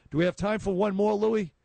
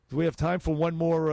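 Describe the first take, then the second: First: Quick, higher call across the studio to Louis; calling out to producer. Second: Said in the usual way. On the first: Real, not acted. Host asks producer Louis for time, calling out brightly. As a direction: toss the question over to the booth, brisk and raised.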